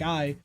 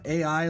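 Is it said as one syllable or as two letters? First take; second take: one syllable; two letters. First: It is said as one single syllable. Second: It is said as two separate letters. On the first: It means love. "saying it like I, means love" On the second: It means artificial intelligence. "like the artificial intelligence, saying it like that"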